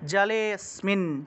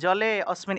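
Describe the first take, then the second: First: The two words run together, vowel dropped. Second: The two words are said separately, full vowel. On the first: The speaker calls it right. "জলে স্মিন একসাথে" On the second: The speaker calls it wrong. "এরকম উচ্চারণ করে আলাদা আলাদা"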